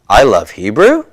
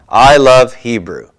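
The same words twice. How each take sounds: First: The pitch rises at the end. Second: The pitch falls at the end. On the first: It asks a yes-no question. "if my intonation goes up at the end of that" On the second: It is a statement of fact. "Falling intonation"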